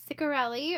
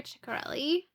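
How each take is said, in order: First: "Ciccarelli" begun with an S sound; soft-C pronunciation. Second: "Ciccarelli" begun with a CH sound; CH pronunciation. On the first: Reader trying the author's surname, soft S start to "Ciccarelli". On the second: Reader offering the surname's alternative, CH start to "Ciccarelli". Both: Shown as a demonstration. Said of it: "depending on how she pronounces it".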